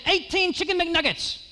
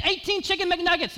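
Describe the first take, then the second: First: High, mock-yelled order from the counter; server yelling order. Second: High, mock-yelled order; server insisting. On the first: Server calling the order back to the kitchen, high mock yell. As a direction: call it out like a busy cashier. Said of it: "yelled back her order". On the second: Server repeating the order back to the customer, high mock yell. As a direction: fire it back like a tired cashier. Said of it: "And she said again".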